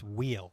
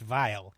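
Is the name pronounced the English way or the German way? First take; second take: English; German. First: The name is said with a non-German pronunciation. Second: The name is said with a German pronunciation. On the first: "If it's uh, not a German pronunciation, it's Wheel" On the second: "If it's German, it's Weil"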